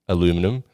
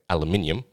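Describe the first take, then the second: First: It is said the American way, four syllables. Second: It is said the non-American way, five syllables.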